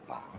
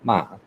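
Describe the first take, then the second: First: The pitch stays low throughout. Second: The pitch drops sharply downward. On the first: "the low tone ma" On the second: "the dropping tone ma"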